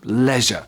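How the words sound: It is said in a British English accent. "In British English, it is pronounced leisure"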